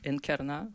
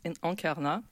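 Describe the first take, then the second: First: Encarna in an Argentine Spanish accent, opening "en" with a sounded n. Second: Said in the usual way. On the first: Shown as a demonstration. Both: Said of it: "d'user de mon accent argentin".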